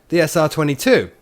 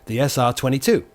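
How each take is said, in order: First: It is said excitedly, with more energy. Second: It is said flatly, with little energy. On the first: The speaker calls it right. "I need to sound more excited. ... Like that" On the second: The speaker calls it wrong. "That doesn't sound like me"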